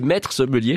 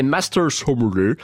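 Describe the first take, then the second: First: Said in the usual way. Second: Master Sommelier in a slow, cheap mock English accent; drawn-out fake English pronunciation of Master Sommelier. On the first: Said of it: "Je vais pas faire ça tout le long". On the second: Shown as a demonstration. Host naming the prestigious British title, cheap English accent. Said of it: "je le prononce avec cet accent, euh, anglais à deux francs cinquante".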